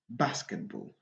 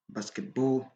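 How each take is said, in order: First: The stress falls on the first part, basket. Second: The stress falls on the second part, ball. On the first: The speaker calls it right. "basket plus prononcé" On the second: The speaker calls it wrong. "il est interdit de dire"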